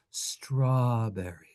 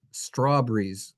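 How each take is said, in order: First: Slow, lovingly stretched strawberry; savoring strawberry. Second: Strawberries said as straw-bur-eez, slow; regional pronunciation. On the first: Teacher savors the English word strawberry, slowly. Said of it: "beautiful luscious word". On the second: Teacher mimics older regional speakers saying strawberries. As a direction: say strawberries with a regional dropped-r drawl. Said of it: "from a certain part of the world". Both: Shown as a demonstration.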